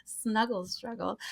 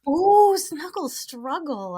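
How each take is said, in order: First: Softly, as if to oneself; quiet repeat. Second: High, slow, savoring ooh; delighted. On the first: Writing these words down, quietly repeating one. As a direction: repeat it under the laughter, much softer. Repeats term to self, noting it down. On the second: Hearing the co-host's favorite term, delighted. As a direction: coo it with relish, pitched up and stretched out. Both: Real, not acted.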